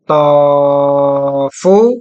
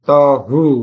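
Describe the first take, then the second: First: The middle consonant is an f sound. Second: The middle consonant is an h sound. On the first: The speaker calls it wrong. "Berarti saya baca tofu" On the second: The speaker calls it right. "Iya betul tohu"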